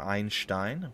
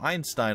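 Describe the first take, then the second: First: The name is said in a Dutch style. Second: The name is said in an English style.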